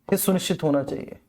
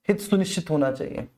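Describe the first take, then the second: No difference in how they are said.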